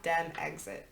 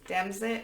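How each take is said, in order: First: It is said as two parts, Dem and exit. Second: It is said as one word, like Brexit. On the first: The speaker calls it wrong. "not Dem exit" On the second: The speaker calls it right. "Pronounce it like Brexit"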